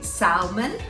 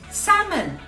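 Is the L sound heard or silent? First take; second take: heard; silent. First: The L sound is pronounced in the word. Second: The L sound is left out of the word. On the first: The speaker calls it wrong. "that is wrong" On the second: The speaker calls it right. "You don't pronounce the L"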